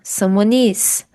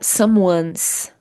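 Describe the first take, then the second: First: The verb is said as a separate full word. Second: The verb is reduced to a final s sound. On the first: "juntando someone is" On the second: "Aqui nós temos a abreviação"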